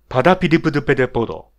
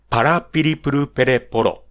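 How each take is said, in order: First: The second syllable sounds like da. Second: The second syllable sounds like a clear ra. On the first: The speaker calls it wrong. "こういう言い方になっている人は、まず、ラ行が弱い" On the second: The speaker calls it right. "正しいラ行は"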